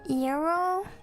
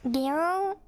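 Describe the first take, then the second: First: The word begins with a Y sound. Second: The word begins with a hard G sound.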